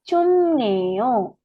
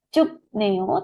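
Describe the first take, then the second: First: The first syllable ends in an m sound. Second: The first syllable ends in a p sound. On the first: The speaker calls it right. "tetapi cum neo" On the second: The speaker calls it wrong. "bukan cup neo"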